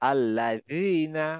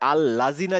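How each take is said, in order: First: The middle consonant is a soft th, tongue out. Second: The middle consonant is a z-like sound, tongue inside. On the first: The speaker calls it right. "অনেকটা দ, দায়ের মতো" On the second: The speaker calls it wrong. "মনে রাখতে হবে আল্লাযীনা যেন না হয়"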